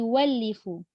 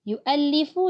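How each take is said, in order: First: A w sound replaces the glottal stop. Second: A glottal stop is kept mid-word. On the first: This is the reading of other imams. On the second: This keeps the hamzah, as in the local reading.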